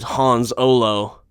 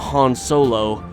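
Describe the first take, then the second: First: The s sound ends the first word. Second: The s sound begins the second word. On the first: The speaker calls it right. "His real name is Hans Olo" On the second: The speaker calls it wrong. "We've been saying it wrong all of these years"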